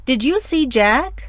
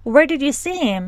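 First: "Did you see Jack" slow, rising on you; rising intonation. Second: "Where did you see him" falling from where; falling intonation. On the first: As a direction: demo the rise, very slowly. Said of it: "که رایزینگه". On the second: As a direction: demo the WH fall. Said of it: "که فالینگه". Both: Shown as a demonstration.

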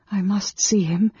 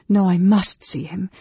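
First: Higher, sudden realization to oneself; a thought that suddenly strikes; sudden resolve. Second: Higher, insistent self-correction; firm resolve. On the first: Woman alone decides to see the mage, suddenly resolved. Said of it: "she said to herself suddenly". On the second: Woman stops turning back and insists, firmly resolved. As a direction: overrule your own doubt firmly. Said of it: "closed the door firmly". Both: A narrator's reading.

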